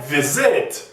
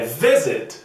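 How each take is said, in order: First: The stress is on the second syllable. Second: The stress is on the first syllable. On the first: The speaker calls it wrong. "Não é visit" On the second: The speaker calls it right. "é visit. A tônica está na primeira"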